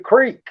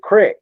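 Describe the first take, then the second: First: It has a long 'ee' vowel. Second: It has a short 'i' vowel.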